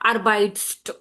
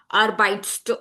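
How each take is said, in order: Both takes have the same delivery.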